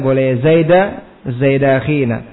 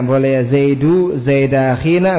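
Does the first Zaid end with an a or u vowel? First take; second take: a; u. First: The first Zaid ends with an a vowel. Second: The first Zaid ends with a u vowel. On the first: The first Zaid is annexed to the following noun. "kalau di fathah bagaimana i'rabnya? Ya Zaida" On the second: The following Zaid is an apposition or substitute. "Kalau dibaca dhamma ya Zaidu Zaida akhina"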